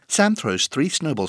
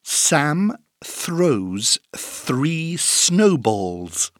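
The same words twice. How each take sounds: First: The sentence is said very fast. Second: The sentence is said at a moderate speed.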